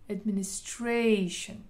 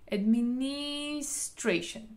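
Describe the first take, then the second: First: The stress is on the fourth syllable. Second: The stress is on the third syllable. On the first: The speaker calls it right. "אנחנו בעברה הרביעית" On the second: The speaker calls it wrong. "אם אני עושה על העברה השלישית"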